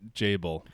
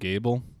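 First: The name begins with a J sound. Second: The name begins with a hard G sound. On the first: This is how others say it. "but Jable" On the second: This is how the speaker personally says it. "I still call him Gable"

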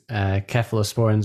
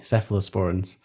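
First: The word begins with a hard K sound. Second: The word begins with a soft S sound. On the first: "in the UK we pronounce cephalosporins with a hard K" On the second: "over in the US it's soft C cephalosporins"

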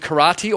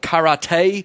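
First: Karate is said in the everyday way. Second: Karate is said in the insider way. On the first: The speaker is an ordinary outsider. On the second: The speaker is in the know.

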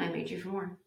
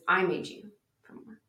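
First: The stress falls near the end of the sentence. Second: The stress falls near the start of the sentence.

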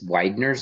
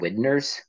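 First: The first vowel is a long I sound. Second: The first vowel is a short I sound. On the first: "not a long I sound" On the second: "that should be a short I sound"

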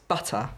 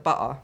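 First: The word is said with a standard accent. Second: The word is said with an Essex accent. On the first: The speaker calls it right. "it's butter" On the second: The speaker calls it wrong. "if you say butter like that again"

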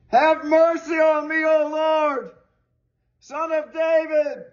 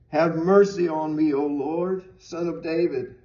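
First: It is cried out in a desperate, pleading voice. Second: It is read in a plain, even voice.

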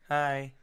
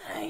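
First: The voice sounds clear and normal. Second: The voice sounds hoarse and raspy. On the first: The voice has recovered. The speaker calls it right. "My voice sounds better now" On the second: The voice was damaged before. The speaker calls it wrong. "Before it was like, hi, everyone. Like Marge Simpson"

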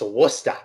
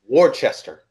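First: The word is said shortened, with syllables dropped. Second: Every spelled syllable of the word is pronounced. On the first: The speaker calls it right. "But it's Worcester" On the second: The speaker calls it wrong. "Because that's how it's spelled. It's W-O-R-C-E-S-T-E-R, which in all sense means Worcester"

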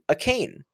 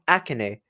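First: It sounds like the English words 'a cane'. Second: It is said with Japanese-style vowels. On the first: "if you say it like him" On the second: "It's written like the Japanese way, so it's like"

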